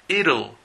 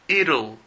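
First: It is said with an American accent. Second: The same.

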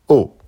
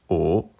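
First: The pitch falls sharply from high to low. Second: The pitch rises from mid to high. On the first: "Quatrième ton" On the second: "deuxième ton"

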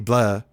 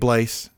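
First: The final S sound is silent. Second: The final S sound is pronounced. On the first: The speaker calls it right. "The S is silent" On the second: The speaker calls it wrong. "it's not Sammy Blais"

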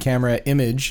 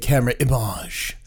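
First: The name is said in a plain, unaffected way. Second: The name is said in a fancy, pretentious way. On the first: The speaker calls it right. "is the correct pronunciation" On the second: The speaker calls it wrong. "which sounds very pretentious"

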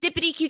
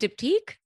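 First: The name is said with extra syllables. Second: The name is said in a short form. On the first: The speaker does not know the brand name. The speaker calls it wrong. "his Dippity Q candles" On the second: The speaker knows the brand name. The speaker calls it right. "Do you mean Diptyque?"

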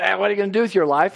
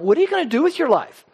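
First: It is said in a scornful, negative tone. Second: It is said in an earnest, encouraging tone.

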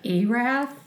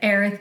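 First: The second syllable sounds like 'ath'. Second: The second syllable sounds like 'ith'. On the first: The speaker calls it right. "you mean Erath?" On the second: The speaker calls it wrong. "they said Erith County"

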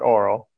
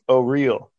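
First: It sounds like oral, with two syllables. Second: It sounds like O-real, with three syllables. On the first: The speaker calls it wrong. "oral is not oral. Nope" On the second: The speaker calls it right. "It's O-real"

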